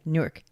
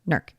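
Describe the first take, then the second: First: The name is said fully with two clear syllables. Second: The name is said quickly, squeezed into one syllable. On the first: "like Newark" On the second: "if you say it quick enough, it's Nerk"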